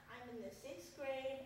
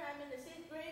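First: It is said slowly. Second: It is said fast.

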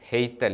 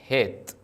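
First: The vowel is followed by a y glide. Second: The vowel is a plain long e. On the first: The speaker calls it wrong. "ഹെയ്ത്ത് അല്ല" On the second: The speaker calls it right. "യൂദ് ഉച്ചരിക്കുന്നില്ല"

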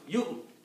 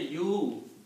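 First: The syllable is cut short with a sharp catch. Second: The syllable is drawn out with a full long vowel. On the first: The speaker calls it right. "kind of a little jerk to the tongue" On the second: The speaker calls it wrong. "Don't say you, because you means you are pronouncing vowel"

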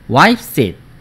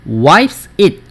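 First: Wipes and it run together as one unit. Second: Wipes and it are said as separate words. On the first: The speaker calls it right. "이런 것들을 다 연음이라고 하는 거예요" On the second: The speaker calls it wrong. "wipes it이 아니고"

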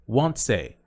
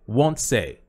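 No difference in how they are said.

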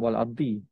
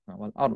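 First: The word ends with a final i vowel. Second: The word ends on a consonant with no vowel. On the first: The speaker calls it wrong. "not wal ardi" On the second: The speaker calls it right.

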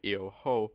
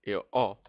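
First: An h sound is heard before the vowel. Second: No h sound is heard before the vowel. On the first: The speaker calls it wrong. "If you pronounce the H, it will sound like io ho, and io ho sounds really bad" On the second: The speaker calls it right. "I do not pronounce the H"

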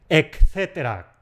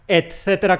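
First: The first consonant is said as a k sound. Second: The first consonant is said as a t sound. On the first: The speaker calls it wrong. "Es un error decir etcétera, como si hubiera ahí una K" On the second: The speaker calls it right. "Etcétera con T"

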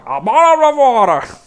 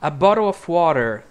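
First: It is said in a gurgling creature voice. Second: It is said in an American accent.

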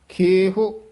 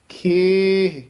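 First: The word ends with an added rounded vowel. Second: The word ends without any added vowel. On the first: The speaker calls it wrong. "ਖੇਹੋ ਐ ਔਂਕੜ ਨਹੀਂ ਲਾ ਦੇਣਾ" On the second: The speaker calls it right. "ਖੇਹ ਦੇਹ ਸੇਹ ਇਹ ਉਚਾਰਨ ਹੈ"

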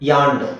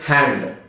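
First: The word begins with a y glide sound. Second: The word begins with a breathy h sound. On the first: The speaker calls it wrong. "ಯಾಂಡ್ ಅಂತ ಹೇಳ್ತಾರೆ. ಯಾಂಡ್, that's wrong actually" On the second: The speaker calls it right. "ಕೈಗೆ ಹ್ಯಾಂಡ್ ಅಂತ ಹೇಳೋದ್ರ ಬದಲು"

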